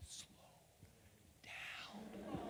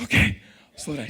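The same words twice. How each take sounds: First: Breathy hushed whisper across the table. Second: Said in the usual way. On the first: Retold or imitated. Boss whispering across the read-through table, hushed. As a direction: mouth it softly so only he hears. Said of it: "She goes". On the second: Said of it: "I'm like".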